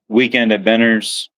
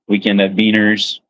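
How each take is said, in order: First: The name is said as Benners. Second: The name is said as Beaners. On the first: This is how most people say it. "everybody just basically says Benner" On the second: This is the proper way to say it. "proper way to say it actually"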